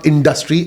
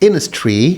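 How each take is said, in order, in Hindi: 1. हर ध्वनि, d सहित, स्पष्ट रूप से बोली गई है। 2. अमेरिकी शैली के संक्षिप्त उच्चारण में d छोड़ दिया जाता है। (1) "इट्स नॉट इंडस्ट्री" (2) "इट्स इनस्ट्री"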